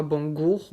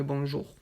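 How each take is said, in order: First: "bonjour" said with a hard g, as "bongour"; wrong-way "bonjour", bon-gour; mispronounced bonjour. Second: Said in the usual way. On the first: Shown as a demonstration. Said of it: "Donc ce n'est pas bonjour". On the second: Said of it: "mais bonjour".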